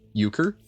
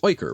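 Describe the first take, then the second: First: The first syllable sounds like 'you'. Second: The first syllable sounds like 'oy'. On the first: The speaker calls it right. "I said it right the first time" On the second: The speaker calls it wrong. "I assume it's like Euler"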